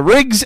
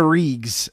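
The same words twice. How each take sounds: First: Rigs said with a short i, like rig; Rigs pronounced. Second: Regs said as Reegs with a long ee; Reegs pronounced. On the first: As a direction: say Rigs as in rigging, short vowel. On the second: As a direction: say Regs rhyming with leagues. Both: Shown as a demonstration. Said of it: "I still say I'm wrong".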